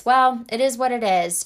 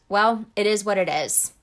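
First: Flat shrug of "Well, it is what it is"; mock resigned sigh of a phrase. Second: Resigned shrug. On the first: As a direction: give up on it aloud. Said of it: "accepting that default response". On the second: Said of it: "with that quote". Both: Shown as a demonstration.

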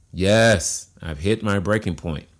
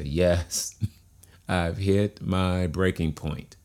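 First: YES hit loud, then the rest at usual level; emphatic demonstration. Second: Drawn-out, deliberate admission; slow demonstration. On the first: Coach has listeners repeat the admission, emphatic on "Yes". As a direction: punch "Yes", then state it plainly. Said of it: "Now say it again". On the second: Coach leading listeners to say yes, slow and deliberate. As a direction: say it slowly, like you mean it. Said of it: "Say it a little bit slower". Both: Shown as a demonstration.

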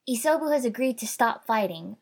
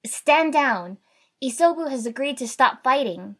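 First: Raised, higher announcing voice; firm public declaration, short of shouting; repeated announcement. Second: Loud, high commanding announcement; raised, forceful order; trying to sound authoritative. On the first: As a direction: restate it firmly, a little loud. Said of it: "I repeated". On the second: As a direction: call it out with authority. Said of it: "tried to sound authoritative". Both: A narrator's reading.

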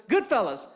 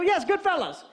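First: Said in the usual way. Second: High, triumphant yes; excited confirmation. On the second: Retold or imitated. Caller finally gets the film title, excited confirmation. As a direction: jump on the title, pitch up.

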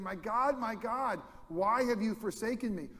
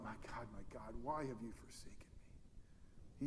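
First: Anguished cry, higher in pitch; a retold cry from the cross, pitched up. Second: A hushed, whispered cry from the cross; anguished whisper. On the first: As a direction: cry it out to God in agony. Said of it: "crying out". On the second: Retold or imitated. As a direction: breathe the words out, much softer, broken. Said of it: "And he cries out".

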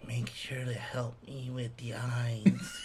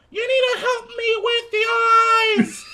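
First: Slow, soft whisper; drawn-out eerie whisper, imitating the child; whispered kid quote. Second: Very high, shouted child impression; hammed-up kid hollering for help; loud annoying kid. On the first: Kid turning to Dad at reveal, slow whisper. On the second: Kid asking Dad's help carving, mock high yell.

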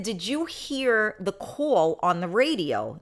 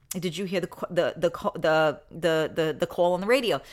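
First: Said in the usual way. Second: Hesitant, stuttering over the; stammering cop. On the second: Retold or imitated. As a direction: trip over the words like an embarrassed cop. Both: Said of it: "The cop said".

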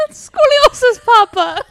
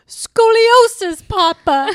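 First: High, loud echo of the quote; character voice. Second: High, slow, loud quoting voice; drawn-out high quote; character voice. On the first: Repeating movie line in voice. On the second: Quoting movie line in character. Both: Retold or imitated.

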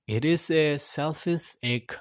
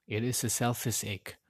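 First: A little higher and slow, leaning on is; slow emphatic admission. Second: Softer, dropped repeat of the admission; quiet repeat. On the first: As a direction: say it slowly, owning up. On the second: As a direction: murmur it again to yourself. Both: Real, not acted. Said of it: "I'm being honest".

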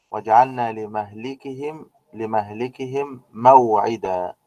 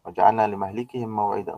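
First: Slow, drawn-out Quranic recitation; slow reverent recitation of the verse. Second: Said in the usual way. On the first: Shown as a demonstration. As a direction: chant the verse slowly and evenly. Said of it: "reciting a Quranic verse". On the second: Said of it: "verse repeated at normal pace".

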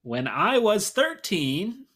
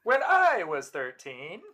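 First: High, loud, slow stand-up delivery; drawn out like a stand-up comic's setup; John Mulaney. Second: Echoing Mulaney. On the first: Co-host reading a song title like John Mulaney, stretched out and loud. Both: Acted. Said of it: "That sounded like John Mulaney big time".

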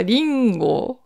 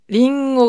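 First: リンゴ slowly, in Akita pitch accent; Akita intonation. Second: Said in the usual way. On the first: Shown as a demonstration. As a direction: give リンゴ a drawn-out Akita dialect melody. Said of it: "秋田弁はリンゴ". (秋田弁のイントネーションで「リンゴ」) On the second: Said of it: "リンゴが標準語ですよね".

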